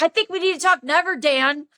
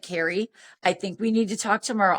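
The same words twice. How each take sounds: First: High, fast mocking comeback; going off. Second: Understated, even retold voice; calm reply. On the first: Tipsy woman rejecting Dan's suggestion, indignant. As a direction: throw his words back, pitch jumping up. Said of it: "I went off on him". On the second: Dan putting off tipsy caller till tomorrow, calm. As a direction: placate her evenly, without rising to it.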